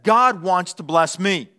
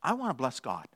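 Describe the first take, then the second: First: Lightly voiced cat, slow and assured; mildly self-important, stretched out; self-centred cat. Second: Soft, lower, humble dog; quiet voice of a worshipping dog; devoted dog. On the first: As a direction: proclaim it slowly as a hint of a cat. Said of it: "Here's a cat's mindset". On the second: Acted. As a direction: say it low and reverently. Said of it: "And a dog says".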